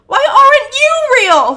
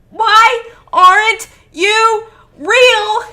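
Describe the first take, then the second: First: High, continuous shriek in one breath; anguished shriek. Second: WHY, AREN'T, YOU, REAL each screamed separately, slowly; word-by-word screamed demand. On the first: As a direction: shriek the whole question in one run. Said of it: "he shrieks". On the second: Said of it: "slamming his head against the ground with every word". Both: A narrator's reading.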